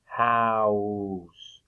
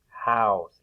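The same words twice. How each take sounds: First: "House" drawn out to show the vowel; stretched vowel. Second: Said in the usual way. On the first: Shown as a demonstration. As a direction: stretch "House" slowly for listening. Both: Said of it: "hear the long O sound".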